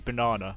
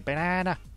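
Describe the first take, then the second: First: It is said in the speaker's normal accent. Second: It is said in a Scouse accent.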